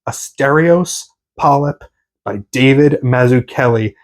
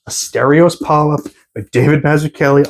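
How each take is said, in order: First: The title is said slowly and deliberately. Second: The title is said at a normal pace.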